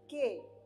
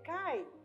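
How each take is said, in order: First: The vowel is said as 'e'. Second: The vowel is said as 'ai'. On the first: The speaker calls it right. "mas sim que" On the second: The speaker calls it wrong. "nós não vamos ler cai"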